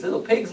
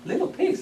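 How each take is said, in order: First: Said in the usual way. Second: High sing-song call of the wolf; the wolf sweetly coaxing the pigs, pitched up high. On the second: Acted.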